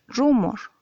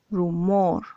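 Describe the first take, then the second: First: The stress is on the first syllable. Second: The stress is on the last syllable. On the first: The speaker calls it wrong. "tú no dices rumor" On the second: The speaker calls it right. "dices rumor"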